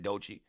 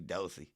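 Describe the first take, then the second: First: The middle consonant is a 'ch' sound. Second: The middle consonant is an 's' sound. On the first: The speaker calls it wrong. "I'm saying Dochi wrong" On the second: The speaker calls it right. "Okay, I got you"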